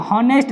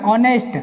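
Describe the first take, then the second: First: हॉनेस्ट said with a voiced h at the start; wrong take: हॉनेस्ट with the h sounded; hard h spoken in हॉनेस्ट; wrong pronunciation. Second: ऑनेस्ट with a silent h, starting on the vowel; ऑनेस्ट said as "onest"; right pronunciation. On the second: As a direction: correct take: ऑनेस्ट, no h sound. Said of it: "ऑनेस्ट पढ़ेंगे". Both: Shown as a demonstration.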